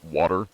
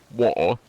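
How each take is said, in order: First: It is said in an American accent. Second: It is said in a British accent.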